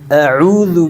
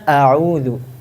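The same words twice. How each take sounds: First: The throat sound is forced and strained. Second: The throat sound is light and relaxed. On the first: The speaker calls it wrong. "Itu pita suara hampir keluar juga itu. Nggak kayak gitu" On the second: The speaker calls it right. "Tapi yang benar gimana?"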